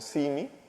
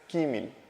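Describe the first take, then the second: First: The word begins with an S sound. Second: The word begins with a K sound. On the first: The speaker calls it wrong. "gente que no es de Yucatán pronunciase esto como Simi" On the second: The speaker calls it right. "la pronunciación correcta es Quimil"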